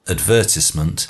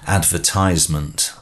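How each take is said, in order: First: It is said with a British pronunciation. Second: It is said with an American pronunciation. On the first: "So you've got the British one" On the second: "the American version would be"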